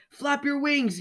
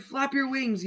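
First: Much higher yelled call; mother's yell. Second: High urgent call, a little less shrill than hers; father's yell. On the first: Mother bird calling to her falling baby, high yell. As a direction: shout up to him to keep flapping. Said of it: "yelled Miss Bird". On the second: Father bird urging his flying baby on, high yell. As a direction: call up to him to keep flapping. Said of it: "yelled Mister Bird". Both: A narrator's reading.

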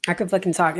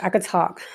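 First: Fucking stressed, falling after. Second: Said in the usual way. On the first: Real, not acted. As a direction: hit the word fucking hard.

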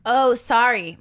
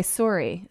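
First: "sorry" with an open ah, like SAH-ree; American pronunciation. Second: "sorry" with a round o, SOR-ee; Canadian pronunciation. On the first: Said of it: "people here probably say Osario". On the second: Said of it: "in Canada, they say sorry". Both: Shown as a demonstration.

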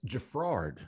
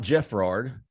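First: Jeffrard said slowly with the stress on RARD; Jeffrard, drawn out, stressed on the last syllable; correct pronunciation. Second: Jeffrard said slowly with the stress on JEFF; Jeffrard, stressed on the first syllable; wrong pronunciation. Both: Shown as a demonstration. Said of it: "Put the emphasis on the wrong syllable".

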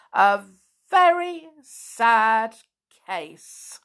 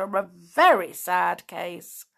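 First: "very sad" high, loud and drawn out; emphatic repeat. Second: Slow, grave pronouncement; grave verdict. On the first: Doctor hammers home the verdict, "very sad" slow and loud. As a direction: pause between words, stretch "very sad", drop on "case". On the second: Doctor pronounces on Binkle, slow and grave. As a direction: state it slowly with mild solemnity. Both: A narrator's reading.

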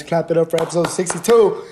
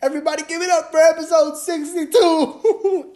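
First: Said in the usual way. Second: Much higher, cartoonish call to the crowd; high cartoon hype man voice; squeaky hype voice.

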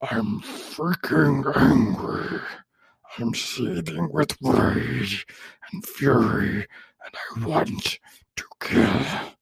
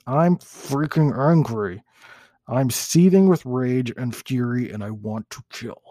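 First: Very slow, whispery raging monster growl; full-on seething monster, hammed up. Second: Slow, drawn-out angry monster; a first, half-hearted go at a raging monster. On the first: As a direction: draw every word out in a harsh, voiceless monster rasp. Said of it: "Let me try that one more time". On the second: Acted. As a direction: seethe slowly as the monster. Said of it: "That's my monster voice".

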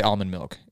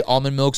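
First: Almond said as "AHL-mund"; almond with an unrounded ah. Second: Almond said as "ALL-mund"; almond with a rounded aw. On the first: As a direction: say almond with an open ah. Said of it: "Sometimes I do say". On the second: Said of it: "sometimes I don't say". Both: Shown as a demonstration.

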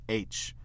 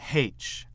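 First: H said "aitch", no breath sound first; American H, "aitch"; American silent-h H. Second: H said "haitch", breath sound first; British-style H, "haitch"; British aspirated H. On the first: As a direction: start H straight on the vowel. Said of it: "sans un H au début". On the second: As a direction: sound the h at the start of H. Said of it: "avec le son H". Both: Shown as a demonstration.

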